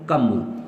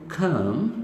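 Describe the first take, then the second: First: The first sound is a plain k, without breath. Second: The first sound is a breathy kh, with air. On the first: The speaker calls it wrong. "इसको ये ना कहो कम।" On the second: The speaker calls it right. "आपको कहना चाहिए कम"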